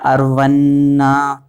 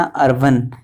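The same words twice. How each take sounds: First: "अर्वन्ना" drawn out with a held double n; mantra pronunciation. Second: "अर्वन" short and quick, ending on n; English-word pronunciation. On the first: Teacher showing the word as written here, drawn-out pronunciation. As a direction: hold the n, then a long final aa in "अर्वन्ना". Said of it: "वैसे यहाँ पर है". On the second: Teacher contrasting with an English word, quick short pronunciation. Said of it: "जैसे English का word होता है". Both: Shown as a demonstration.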